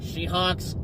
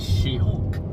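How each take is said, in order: First: The name is said like 'She-Hawks'. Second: The name is said like 'She-Hulk'. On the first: The speaker calls it wrong. "You pronounced it wrong" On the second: The speaker calls it right. "It's She-Hulk"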